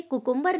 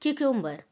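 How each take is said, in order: First: कुकुम्बर with a plain k sound and short u, no y glide; wrong pronunciation. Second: क्यूकुम्बर with a clear kyoo glide at the start; correct pronunciation. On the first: Teacher shows the wrong way to say cucumber, koo-koom-ber. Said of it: "कुकुम्बर नहीं होता है". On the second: Teacher gives the correct cucumber, kyoo-kum-ber. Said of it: "इसका correct pronunciation होता है क्यूकुम्बर". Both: Shown as a demonstration.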